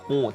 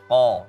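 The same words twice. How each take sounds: First: The vowel is said with the mouth barely open. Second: The vowel is said with the mouth wide open. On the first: The speaker calls it wrong. "masih ko tadi terdengarnya" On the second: The speaker calls it right. "harus ko, buka"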